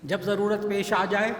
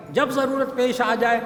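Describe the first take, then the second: First: Said in the usual way. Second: جب ضرورت پیش آ جائے louder and higher, جب punched; emphatic repeat. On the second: Shown as a demonstration. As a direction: hammer home جب ضرورت پیش آ جائے as the closing appeal.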